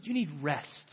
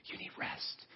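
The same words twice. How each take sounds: First: Said in the usual way. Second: Breathy tempting whisper; unvoiced coaxing whisper. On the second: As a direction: whisper it like a seductress. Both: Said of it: "she whispers to you".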